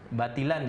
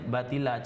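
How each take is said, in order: First: The word ends with an n sound. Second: The word ends with a lengthened a vowel.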